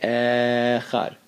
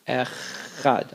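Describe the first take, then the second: First: The opening vowel is held long. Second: The middle ch sound is held long. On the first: "I'll extend the aleph" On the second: "I'll extend the chet"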